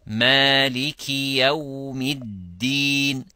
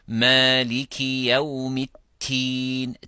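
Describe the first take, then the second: First: The last word starts with a d sound. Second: The last word starts with a t sound. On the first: The speaker calls it right. "ad-din has a different meaning" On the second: The speaker calls it wrong. "They say maliki yawmit teen. Teen means figs"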